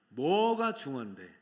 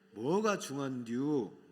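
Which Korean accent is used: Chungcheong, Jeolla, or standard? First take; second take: standard; Chungcheong. First: It is said in standard Korean. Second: It is said in a Chungcheong dialect accent.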